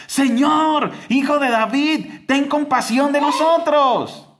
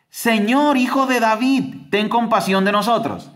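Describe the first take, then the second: First: Very high desperate cry, pushed louder; shouting louder. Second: High pleading call, voice raised; retold crying out. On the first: Retold or imitated. Blind men shout louder past the crowd, desperate high cry. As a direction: cry out over the crowd, begging. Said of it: "gritaban aún más fuerte". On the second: Blind beggars call to Jesus by the road, high pleading cry. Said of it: "comenzaron a gritar".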